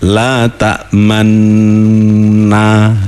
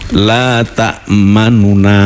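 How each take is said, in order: First: The long n is held with no vowel inside. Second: A faint short u vowel splits the n sound. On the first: "dibaca ismam itu bunyinya begini" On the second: "nunya dibaca hanya uh, sepertiganya"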